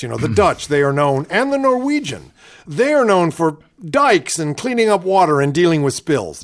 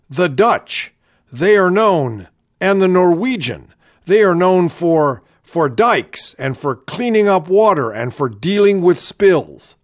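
First: A lightly voiced Palin, higher on Norwegian; gently mock her halting cadence; playful Palin impression; imitating Sarah Palin again. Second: A hammed-up folksy politician; parodying Palin's halting delivery; imitating Sarah Palin. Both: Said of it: "I love the way she talks like this".

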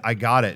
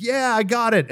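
First: Lower, firm restatement; cooler repeat. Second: High, giddy announcement; triumphant reply. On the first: Traveler repeating himself for the stewardess, lower and firm. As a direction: say it down in the normal register. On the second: Traveler holding up his recovered passport, high and triumphant. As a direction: call it out as if holding up a prize. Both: Retold or imitated.

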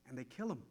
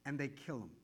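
First: Softer, lower repeat; quiet. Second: Dropped low and soft; quiet. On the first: Preacher to congregation, repeating it low and soft. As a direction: say it again even lower. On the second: Preacher to congregation, quiet and low. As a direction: let it fall, softly. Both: Real, not acted.

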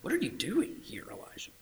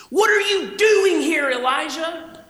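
First: Soft whisper, fading away; whispered take. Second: High, loud, slow accusing question; loud demanding take. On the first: God asking Elijah in a whisper. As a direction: breathe it gently. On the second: God demanding of Elijah, high and loud. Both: Shown as a demonstration. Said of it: "How did the Lord say this?".

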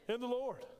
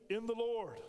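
The two takes are said the same way.

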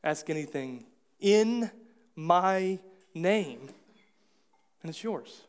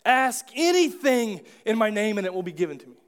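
First: Weight on "name" with a falling close; slower, leaning on "in my name"; the true reading, landing on "name"; right emphasis. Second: "anything" pushed up and held, the rest a little raised; the misreading, leaning hard on "anything"; misread emphasis. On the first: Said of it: "what he's saying is". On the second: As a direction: read it as if the point were the asking. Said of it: "So we read it like". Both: Shown as a demonstration.

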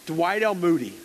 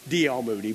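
First: "Dwight L. Moody" with Dwight said out in full; full name Dwight. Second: "D L. Moody" said as two initials, no first name; just the letters "D L. Moody", dropping off at the end; initials only. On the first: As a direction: say the whole first name "Dwight L. Moody", lifting on the L. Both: Retold or imitated. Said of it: "No, he'd say".

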